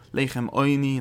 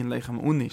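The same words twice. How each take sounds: First: Put-on "Oini" with oy as in boy, then nee; Oini pronunciation. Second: "Uni" with oo as in moon, then nee; Uni pronunciation. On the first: Teacher contrasting two readings for students, Oini pronunciation. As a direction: say "Oini" opening with an oy sound. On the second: Teacher contrasting two readings for students, Uni pronunciation. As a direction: say "Uni" opening with an oo sound. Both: Shown as a demonstration. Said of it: "steht Leichem Uni ins Leine".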